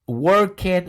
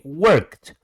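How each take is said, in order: First: The ending is said as an extra syllable. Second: The ending adds no extra syllable. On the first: The speaker calls it wrong. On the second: The speaker calls it right.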